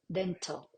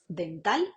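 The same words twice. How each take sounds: First: The t is made behind the teeth, with schwa. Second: The t is made with the tongue on the teeth. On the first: "en inglés" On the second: "eso es español"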